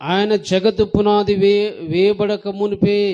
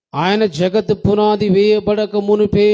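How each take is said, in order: Both takes have the same delivery.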